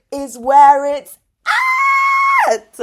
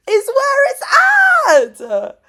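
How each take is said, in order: First: Louder, higher, slow declaration; excited shout. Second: Much higher, very loud, slow, tearful cry-shout. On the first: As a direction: proclaim it with fervour. Excited rant about nerds. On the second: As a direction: shout it again with tears breaking through. Repeats, now tearful. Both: Real, not acted.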